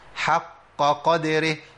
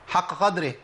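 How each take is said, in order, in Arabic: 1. تُقال بهدوء، وكل أصوات q واضحة. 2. تُقال بسرعة، ويضيع صوت q واحد. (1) "لازم اريح كده عشان اجيب القافات" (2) "كده جبت قافين بس وقاف وقعت مني في الايه؟ في السرعه"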